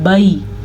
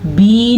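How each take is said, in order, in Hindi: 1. स्वर 'a' से 'i' की ओर सरकता है। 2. स्वर सादा लंबा 'ee' है। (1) "इसको पढ़ते हैं बई" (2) "बी नहीं पढ़ना"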